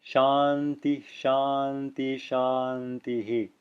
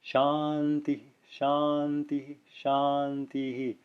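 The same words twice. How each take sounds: First: Shanti, shanti with no breath, then shantihi; final echo only. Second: Shanti, shanti each with a faint h, then clearer shantihi; "Shanti, shanti, shantihi" with soft middle breaths and a clearer last echo; subtle visarga. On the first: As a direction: leave the first two shanti endings open, echo only the last as shantihi. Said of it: "you will only hear the, the final echo". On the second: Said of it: "it can be subtle like this". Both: Shown as a demonstration.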